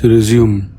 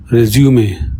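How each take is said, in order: First: Said in the usual way. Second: French "Resume", ending in an ay sound; "Resume" as French résumé; French pronunciation. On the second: Shown as a demonstration. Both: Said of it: "means resume".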